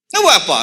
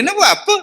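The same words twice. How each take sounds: First: Said in the usual way. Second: Sharply higher, scornful nak buat apa; mocking question. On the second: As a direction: scoff at the pointless grave decorating. Preacher mocking pointless grave decoration. (soalan mengejek dengan nada tinggi)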